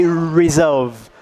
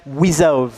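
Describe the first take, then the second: First: Resolve said with a clear English r at the start; correct r. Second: Resolve said as wizolve, the r turned into a w; lip-rounded w on resolve like a child. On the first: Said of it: "So it doesn't say resolve". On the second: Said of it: "He says resolve". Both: Shown as a demonstration.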